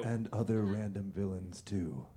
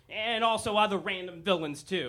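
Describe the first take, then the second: First: Much lower, softer echo; low Batman voice. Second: Said in the usual way. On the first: Acted. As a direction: growl it back like Batman.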